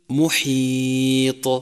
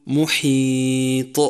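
First: محيط drawn out, ط bounced with no vowel after; very slow melodic محيط ending in a clean bounce; correct qalqala. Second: محيط with a hamza or vowel tacked on after the ط; very slow محيط ending in an extra vowel; qalqala with added vowel. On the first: Teacher chanting the correct ending. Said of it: "مثل". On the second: Teacher showing the wrong vowel after ط. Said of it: "ومن الخطأ أن تقول". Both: Shown as a demonstration.

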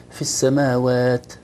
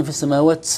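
First: Slow السماوات, closing on a clean tongue-tip t; correct ta articulation. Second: السماوات with its t trailing into an s sound; excessive hams. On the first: Teacher models the ta for the student, cleanly released. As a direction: end السماوات with the tongue behind the upper teeth, no s hiss. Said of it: "التاء طرف اللسان مع أصول الثنايا العليا". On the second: Teacher demonstrates too much breath, ta becoming seen. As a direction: release the last t of السماوات as "ts". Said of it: "زادت كأنها سين". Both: Shown as a demonstration.

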